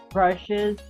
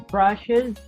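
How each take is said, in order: Both takes have the same delivery.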